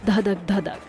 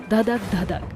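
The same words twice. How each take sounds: The two takes are said the same way.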